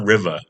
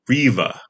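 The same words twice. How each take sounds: First: The name sounds like the word river. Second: The name sounds unlike the word river. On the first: This is the casual pronunciation residents use. "we call it Riva because it's named after a river" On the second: This is the official, fancier pronunciation. "technically speaking"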